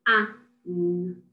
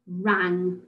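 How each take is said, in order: First: "R-A-N-G" as separate phonics sounds; "R-A-N-G" segmented: r, short a, ng; sound talk. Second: Said in the usual way. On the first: Shown as a demonstration. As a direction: sound out "R-A-N-G" with gaps, ng as one sound. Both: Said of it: "sound talk the words".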